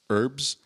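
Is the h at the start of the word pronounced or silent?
silent. The word starts without an h sound. "in the U.S., we call them herbs"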